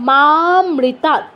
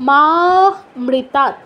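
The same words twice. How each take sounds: No difference in how they are said.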